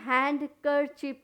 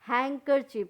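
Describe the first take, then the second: First: The d sound is pronounced. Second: The d sound is left silent. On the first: The speaker calls it wrong. "हैंड कर चिप नहीं कहेंगे" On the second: The speaker calls it right. "डी क्या हो गया, silent हो गया"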